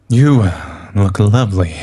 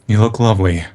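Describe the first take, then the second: First: It is said in a predatory tone. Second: It is said in a plain, neutral tone.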